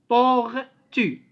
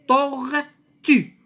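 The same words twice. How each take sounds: Both takes have the same delivery.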